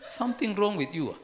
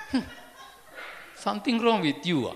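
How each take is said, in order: First: Loud, hostile mock snap; grumpy retort. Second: Loud, hostile mock snap with a laugh; grumpy retort. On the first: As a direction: bark it back at the friendly greeter. Repeating the grumpy reply. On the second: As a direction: throw it back like an annoyed stranger. People glaring at a friendly greeter.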